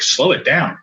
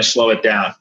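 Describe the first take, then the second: First: Retold stunned echo, pitch jumping within it; shaken disbelief. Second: Said in the usual way. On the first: Father throwing the neurologist's words back, in shaken disbelief. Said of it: "I was shook by it". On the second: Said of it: "Hey, man".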